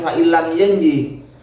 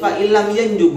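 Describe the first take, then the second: First: The last word ends with an 'i' vowel. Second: The last word ends with an 'u' vowel. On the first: The speaker calls it wrong. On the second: The speaker calls it right. "Yang betul"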